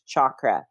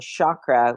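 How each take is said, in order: First: The word begins with a hard ch sound. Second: The word begins with a soft sh sound. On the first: The speaker calls it right. "when it's a C H" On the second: The speaker calls it wrong. "They do the S H sound"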